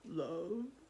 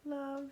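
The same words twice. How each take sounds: First: It is said in a deep, gruff troll voice. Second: It is said in a normal voice.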